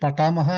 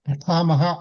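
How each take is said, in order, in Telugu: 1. ఈ పదాన్ని తేలికగా, అదనపు బలం లేకుండా పలికారు. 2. ఈ పదాన్ని గట్టిగా, ఒత్తిపట్టి పలికారు. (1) "పఠామహ అనకుండా" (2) "కొంచెం ఒత్తి పలకడం అలవాటు చేయండి"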